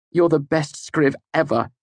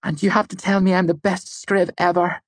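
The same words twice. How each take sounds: First: Raised pitch, emphatic compliment; obliging praise. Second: High-pitched, teasing demand for praise; playful demand. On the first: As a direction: give the demanded praise, falling at the end. Narrator's character obliges her demand. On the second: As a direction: insist on a compliment in a high voice. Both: A narrator's reading.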